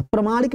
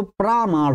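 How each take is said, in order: First: प्रमाणिक with a short "pra"; teacher's wrong example, प्रमाणिक as "pramaanik"; short first vowel. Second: प्रामाण with a long "praa"; teacher's correct model, प्रामाण as "praamaan"; long first vowel. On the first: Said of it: "नहीं होता है". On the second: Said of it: "हो जाएगा". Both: Shown as a demonstration.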